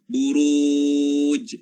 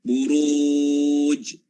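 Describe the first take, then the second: The two takes are said the same way.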